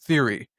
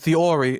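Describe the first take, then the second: First: It is said with an American accent. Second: It is said with a South London British accent. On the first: "as the American the, the American public would do" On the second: "we say theory"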